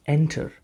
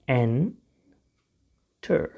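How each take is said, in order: First: Said in the usual way. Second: enter very slowly, split "en... ter"; syllable by syllable. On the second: Shown as a demonstration. Teacher shows learners how to pronounce it, slow syllable by syllable. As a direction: stretch enter out with a long gap.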